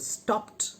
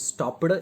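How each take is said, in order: First: The ending is a plain T sound. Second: The ending is not a plain T sound. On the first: The speaker calls it right. "T as in stopped" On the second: The speaker calls it wrong. "stopped is wrong pronunciation"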